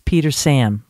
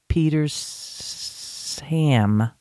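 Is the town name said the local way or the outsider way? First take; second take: local; outsider. First: The name is pronounced the way locals say it. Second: The name is pronounced the way outsiders say it. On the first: The speaker is from the area. The speaker calls it right. "It's Petersham" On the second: The speaker is not from the area. The speaker calls it wrong. "you don't want to be calling it Petersham"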